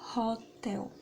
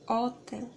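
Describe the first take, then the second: First: The word begins with an audible h sound. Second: The word begins without any h sound. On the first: The speaker calls it right. "Em inglês fala hotel" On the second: The speaker calls it wrong. "é diferente se você falar hotel"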